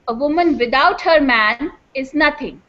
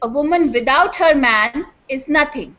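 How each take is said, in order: First: The pause falls right after the word man. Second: The same.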